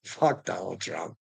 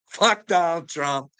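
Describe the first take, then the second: First: Said in the usual way. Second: Higher, louder, slower curse; angrier curse. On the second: Real, not acted. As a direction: spit it out with building contempt. Repeated curse, second louder.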